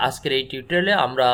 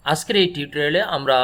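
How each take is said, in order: Both takes have the same delivery.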